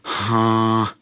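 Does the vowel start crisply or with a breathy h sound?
breathy h. The vowel starts with a breathy h sound. The speaker calls it wrong. "not with an eight sound like this"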